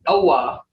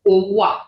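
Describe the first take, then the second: First: Owa with an English long O; English-style mispronunciation. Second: Owa with a rounded, held Creek O; Creek pronunciation. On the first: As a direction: say owa as "oh-WAH". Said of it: "There is no word as owa". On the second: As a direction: say owa as "oo-wuh", not "oh-wah". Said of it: "It's owa". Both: Shown as a demonstration.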